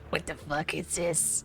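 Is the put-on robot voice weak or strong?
strong. A stronger, fuller put-on Mister Handy voice.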